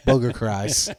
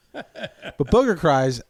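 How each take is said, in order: First: Said in the usual way. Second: "booger cries" drawn out very slowly with weight on "booger"; stressed slow. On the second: Shown as a demonstration. Savoring the phrase about crying in therapy, very slow. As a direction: linger on "booger" for emphasis. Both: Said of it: "Big cry".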